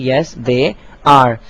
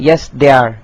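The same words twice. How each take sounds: First: The last two words are said in full. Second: The last two words are contracted together. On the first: The speaker calls it right. "आपको पूरा जुमला कहना पड़ेगा" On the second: The speaker calls it wrong. "तो ये ये बिल्कुल गलत है, यानी कि दे आर कॉन्ट्रैक्शन मुमकिन नहीं है"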